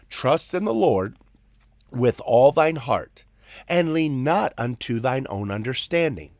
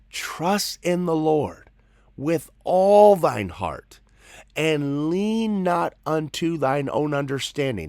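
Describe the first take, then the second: First: It is said at a normal pace. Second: It is said slowly and deliberately.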